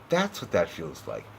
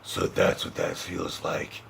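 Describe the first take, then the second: First: It is said in a normal speaking voice. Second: It is said in a gruff Batman voice.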